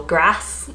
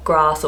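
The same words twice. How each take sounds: First: "grass" with a short "a" as in cat; northern short A. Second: "grass" with a long "ah", like "grahss"; southern long A. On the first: Unsure northern demo for viewers, short "a" in "grass". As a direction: attempt "grass" the northern way, vowel kept short. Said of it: "is that how they say it". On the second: Comparing accents for viewers, "grass" drawn long as "grahss". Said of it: "like, the A sound". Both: Shown as a demonstration.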